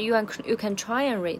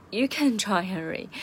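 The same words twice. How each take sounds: First: "you can try and read" with the weight off "you", falling on "try"; no stress on "you". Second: "you can try and read" with the weight up front on "you can"; stress on "you can". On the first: Teacher showing the wrong stress of "you can try and read", weight on "try". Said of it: "那它不是you can". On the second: Teacher showing the right stress of "you can try and read", "you can" stressed. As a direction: hit "you can", then run through "try and read". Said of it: "重音在you can". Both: Shown as a demonstration.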